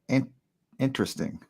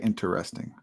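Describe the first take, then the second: First: It is said in a British accent. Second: It is said in an American accent.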